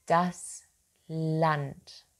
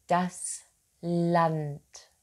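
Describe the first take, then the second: No difference in how they are said.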